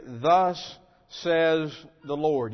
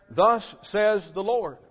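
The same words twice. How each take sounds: First: Confident prophet declaring. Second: Confident false prophet. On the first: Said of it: "these prophets confidently declared". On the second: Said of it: "they confidently confirm and declare". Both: Retold or imitated.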